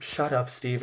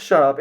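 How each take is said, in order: First: Muttered, softer shut up; tired shush. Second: Louder, sharp shut up; snapped shut up. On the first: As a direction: Clark shushing Steve in a softer, fed-up voice. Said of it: "Clark is just". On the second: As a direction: bark it out to silence him. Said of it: "he says". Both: Retold or imitated.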